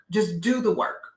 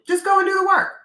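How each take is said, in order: First: Said in the usual way. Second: Much higher, louder "Just go and do the work"; emphatic repeat. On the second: Real, not acted. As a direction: push the repeat up high and strong. Repeated advice, louder second take.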